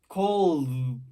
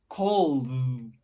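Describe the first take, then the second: The two takes are said the same way.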